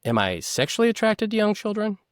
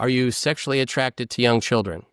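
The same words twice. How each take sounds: First: Higher, incredulous echo of the question; Sandusky re-asking. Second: Plain, level question; interviewer's question. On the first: Sandusky echoing Costas to buy time, higher and incredulous. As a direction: repeat it back high to stall. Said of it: "buys himself time". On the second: Bob Costas asking Sandusky, plain and direct. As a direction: ask it straight like an interviewer. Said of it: "He's asked by Bob Costas". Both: Retold or imitated.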